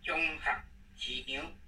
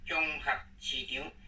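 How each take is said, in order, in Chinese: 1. 音节“合”是低调。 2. 音节“合”是低调。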